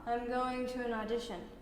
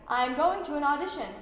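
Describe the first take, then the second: First: It is said smoothly and connected, without breaks. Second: It is said with big, exaggerated energy. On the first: "really smooth with the ribbon of thought" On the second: "we're gonna try really big"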